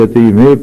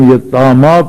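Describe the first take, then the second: First: The word ends with a long 'e' sound. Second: The word ends with a long open 'a' sound. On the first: This is the other, less familiar reading. "اس یہ کو یہ ہی پڑھتے ہیں" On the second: This is the commonly known reading. "کھڑی زبر ڈال کر ہم الف پڑھتے ہیں"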